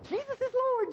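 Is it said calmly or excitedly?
excitedly. It is said with youthful excitement.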